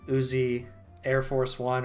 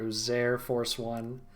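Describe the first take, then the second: First: The start sounds like the word Uzi, then air. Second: The start is blended into one word, Uzair. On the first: The name is taken as the gun's name. The speaker calls it wrong. "like the fucking gun" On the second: The name is taken as a personal name. The speaker calls it right. "I didn't know his name was Uzair"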